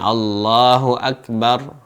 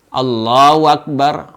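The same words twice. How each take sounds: First: The h in Allahu is said as h. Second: The h in Allahu is said as w. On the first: The speaker calls it right. "Jadi bukan" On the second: The speaker calls it wrong. "mengganti huruf H dengan huruf wawu"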